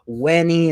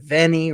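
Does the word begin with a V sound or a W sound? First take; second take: W; V. First: The word begins with a W sound. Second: The word begins with a V sound. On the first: This is the classical pronunciation. "their V's are pronounced as W's" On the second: This is the ecclesiastical pronunciation. "instead of"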